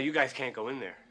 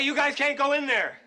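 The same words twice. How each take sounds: First: It is said at a quiet, normal loudness. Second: It is said loudly, almost shouted.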